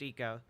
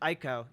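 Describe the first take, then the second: First: The word begins with an 'ee' sound. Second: The word begins with an 'eye' sound. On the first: The speaker calls it right. "technically pronounced Eco" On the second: The speaker calls it wrong. "I still pronounce it Ico"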